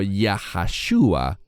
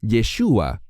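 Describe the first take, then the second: First: The name has an extra middle syllable. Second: The name is said with no extra syllable. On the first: The speaker calls it wrong. "algunos mal pronuncian el nombre del Mesías diciendo Yahashua" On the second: The speaker calls it right. "lo que vemos es Yeshua"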